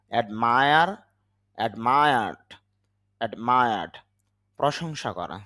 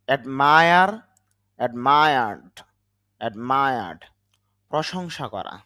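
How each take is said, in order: Both takes have the same delivery.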